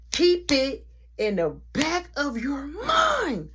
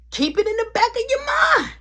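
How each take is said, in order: First: Slow breathy whispered echo; slow spooky whispered reminder; eerie whisper. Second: Much higher, louder called-out warning; big booming reminder; dramatic warning. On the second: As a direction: announce it like a foreshadowing. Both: Acted.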